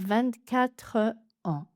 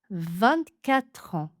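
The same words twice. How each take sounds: First: There is a break after vingt-quatre. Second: The words run together with no break. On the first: The speaker calls it wrong. "et pas" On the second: The speaker calls it right. "On va enchaîner le son de consonne «tre» avec la voyelle suivante"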